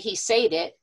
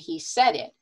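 First: 'Said' has a long A vowel, rhyming with 'paid'. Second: 'Said' has a short E vowel, rhyming with 'bed'. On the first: The speaker calls it wrong. "We don't say he said it" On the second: The speaker calls it right. "we say he said it"

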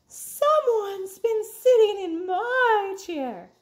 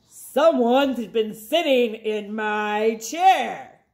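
First: A gasping, startled Mama Bear voice. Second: A low grumbling Papa Bear voice.

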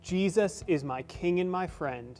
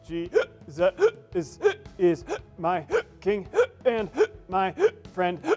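First: The words flow smoothly in a normal voice. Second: A hiccup breaks in between every word. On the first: "in a normal voice" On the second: "hiccup in between every single word. Kind of like this"

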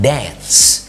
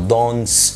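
First: It is said with an American accent. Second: It is said with a British accent.

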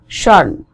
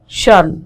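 First: The T is held back in the middle. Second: The same.

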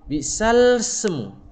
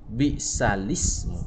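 First: The L runs straight into the S. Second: A short i vowel follows the L. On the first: The speaker calls it wrong. "Tak boleh" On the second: The speaker calls it right. "Ya kena tambah baris"

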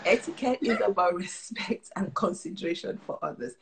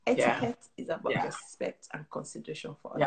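First: The sentence is said at louder volume. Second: The sentence is said at normal volume.

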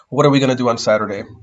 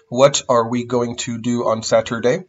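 First: Going to is reduced to gonna. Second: Going to is said in full, two words. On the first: "going to will sound like gonna" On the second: "Instead of saying"

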